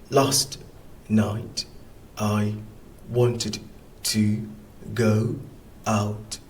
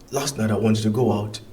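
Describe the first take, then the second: First: The sentence is read at a slower pace. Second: The sentence is read quickly with linked words.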